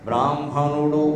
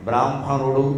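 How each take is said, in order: No difference in how they are said.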